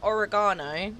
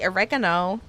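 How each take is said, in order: First: The word is said in a non-American accent. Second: The word is said in an American accent. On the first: "instead of saying oregano" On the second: "turn American"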